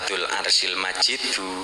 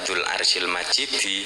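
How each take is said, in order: First: The last word ends with an 'u' vowel. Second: The last word ends with an 'i' vowel. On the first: God himself is the glorious one. "harokate dhammah" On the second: The throne is the glorious one. "pakai kasroh"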